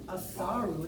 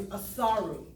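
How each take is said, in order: First: Asaru rolled smoothly off the tongue; savoured name. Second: Said in the usual way. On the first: Shown as a demonstration. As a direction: savour Asaru, letting it flow out. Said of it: "Doesn't that just roll off your tongue?".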